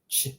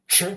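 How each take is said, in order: First: "ch" with tongue low, lighter; lone soft "ch", softly released; soft Croatian ch. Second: "ch" with tongue on the palate; lone hard "ch", tongue high; hard Croatian ch. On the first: Teacher comparing both sounds, soft ch. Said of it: "to the bottom of your mouth". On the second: Teacher comparing both sounds, hard ch. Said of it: "top of the mouth". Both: Shown as a demonstration.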